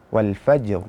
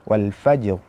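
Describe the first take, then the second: No difference in how they are said.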